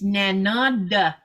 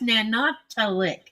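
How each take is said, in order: First: The middle consonant is a hard D sound. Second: The middle consonant is a clear T sound. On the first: The speaker calls it right. "that D sound, but I make it a little too hard" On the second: The speaker calls it wrong. "tourists see it, they're like"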